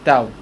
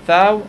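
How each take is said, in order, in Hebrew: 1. העיצור הראשון הוא נפיץ קשה של t. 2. העיצור הראשון הוא חיכוכי רך. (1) "שכחו את הדלת הרפויה ואת התו הרפויה" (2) "במקום להגיד"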